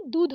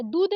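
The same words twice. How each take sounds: First: दूध ending in breathed dh; correct aspirated ध. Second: दूध said as dood; wrong द for ध. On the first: Teacher correcting it, दूध with aspirated dh. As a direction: puff the ध in दूध. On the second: Teacher showing the mistake, दूध with plain d. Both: Shown as a demonstration. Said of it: "दूध नहीं दूध होता है".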